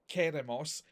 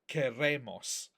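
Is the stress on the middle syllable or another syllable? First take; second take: another syllable; middle syllable. First: The stress falls away from the middle syllable. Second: The stress falls on the middle syllable. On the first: The speaker calls it wrong. "be careful with the stress on that one. It's not queremos" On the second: The speaker calls it right. "it's queremos"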